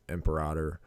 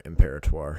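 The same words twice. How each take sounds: First: Imperator as "em-per-AH-der"; alternate pronunciation. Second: Imperator as "im-PAIR-uh-twar"; alternate pronunciation. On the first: Snake owner offering one way to say the boa's name, imperator as "em-per-AH-der". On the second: Snake owner offering another way to say the boa's name, imperator as "im-PAIR-uh-twar". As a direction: say imperator with a "twar" ending, louder. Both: Shown as a demonstration. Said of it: "however you say it".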